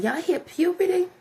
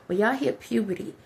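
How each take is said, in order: First: High, rising pitch; voice going up. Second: Said in the usual way. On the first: Shown as a demonstration. Speaker showing boys how voices change at puberty, high pitched. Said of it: "y'all goes up". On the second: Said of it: "you see how my voice go down".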